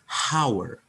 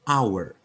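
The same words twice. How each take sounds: First: The word starts with an audible h sound. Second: The word starts with a vowel, no h. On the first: The speaker calls it wrong. "bukan hour" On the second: The speaker calls it right. "haknya nggak nggak dibaca"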